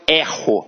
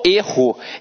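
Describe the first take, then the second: First: The first vowel is an open e sound. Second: The first vowel is a closed e sound. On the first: It is the verb: I make a mistake. "Observa que este e tem um som aberto" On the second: It is the noun: a mistake. "funcionando como um substantivo"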